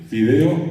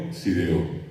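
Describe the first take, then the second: First: Fideo with a clear F; the teacher says fideo for the class to copy; teacher's model fideo. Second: Sideo, softer, S for F; child's sideo. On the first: Teacher modelling fideo for pupils to repeat. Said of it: "un profesor le pidió ... que repitan". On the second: The child repeating fideo as sideo. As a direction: answer sideo with an S instead of the F. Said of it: "acá sideo". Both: Shown as a demonstration.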